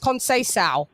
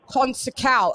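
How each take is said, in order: First: The name is said with a Portuguese pronunciation. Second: The name is said with an anglicized pronunciation. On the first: The speaker calls it right. "I had to say it's Conceição" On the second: The speaker calls it wrong. "it's not Consecao"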